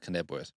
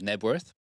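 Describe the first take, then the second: First: The word starts with a sounded K. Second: The word starts with an N sound, no K. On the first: The speaker calls it wrong. "It's not Knebworth" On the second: The speaker calls it right. "The silent K on that one"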